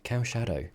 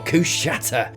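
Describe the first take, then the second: First: The name begins with a 'cow' sound. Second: The name begins with a 'coo' sound. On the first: "as Google would like to tell me" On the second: "I'm going with Kushata"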